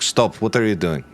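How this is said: It is spoken in a put-on foreign accent. The speaker calls it wrong.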